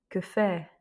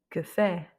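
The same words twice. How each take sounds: Both takes have the same delivery.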